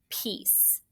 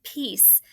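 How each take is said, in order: First: The word Peace fully whispered, no voice. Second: Said in the usual way. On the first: Shown as a demonstration. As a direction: breathe Peace out as a calm whisper. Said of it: "do you remember that signal". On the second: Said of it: "Say it".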